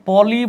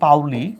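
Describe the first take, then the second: First: The first vowel is a plain 'o' sound. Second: The first vowel is an 'ow' glide. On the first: The speaker calls it wrong. "পলি বলা হয়" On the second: The speaker calls it right. "আসল উচ্চারণ হচ্ছে পাউলি"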